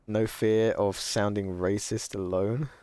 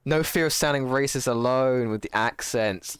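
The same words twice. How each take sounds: First: Said in the usual way. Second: Higher, louder reread as it clicks; sudden realisation. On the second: Real, not acted. Streamer rereading chat's message, suddenly getting it. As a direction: read it out like the penny just dropped.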